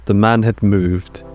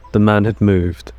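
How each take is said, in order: Both takes have the same delivery.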